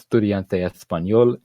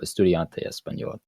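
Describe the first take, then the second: First: The sibilant is pronounced as a th sound. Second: The sibilant is pronounced as a plain s sound. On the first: "it's a th sound" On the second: "a normal sound"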